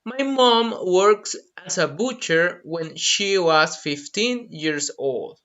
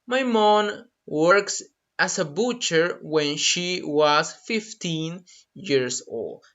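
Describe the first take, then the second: First: Slow, clear model sentence; carefully paced example. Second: Slow, careful repetition; drawn-out model sentence; slow repeat. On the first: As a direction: say it slowly for learners. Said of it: "For example". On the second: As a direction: echo it slowly for the class. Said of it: "That's a great example". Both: Shown as a demonstration.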